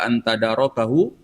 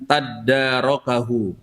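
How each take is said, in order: First: The d sound is short and single. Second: The d sound is held long and doubled. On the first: "kalau yang umum, terutama di dalam mushaf kita" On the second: "Dalam sebagian bacaan, dalnya itu bertasydid"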